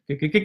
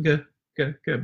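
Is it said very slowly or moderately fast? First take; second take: moderately fast; very slowly. First: It is said at a moderate pace. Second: It is said very slowly, drawn out.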